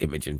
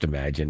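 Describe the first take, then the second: First: The last syllable sounds like 'gen'. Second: The last syllable sounds like 'gin'. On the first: The speaker calls it wrong. "I've been calling it Imagen for a long time" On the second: The speaker calls it right. "it's actually pronounced Imagine"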